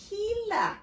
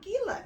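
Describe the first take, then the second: First: Gila said "HEE-la", with an H sound; correct pronunciation. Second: Gila with a hard G, as spelt; mispronounced. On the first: Reader corrects herself on the Spanish word, Gila as "HEE-la". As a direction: say Gila high, opening on an H. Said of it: "it's called". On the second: Reader rejects her own mistake, Gila with a hard G. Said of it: "it's not Gila". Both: Shown as a demonstration.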